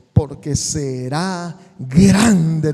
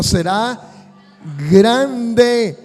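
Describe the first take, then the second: First: Said in the usual way. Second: Será, then a pause, then grande hit hard and much louder; stress on GRANDE. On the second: Shown as a demonstration. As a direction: call and response, grande thrown out loud. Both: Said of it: "Diga conmigo".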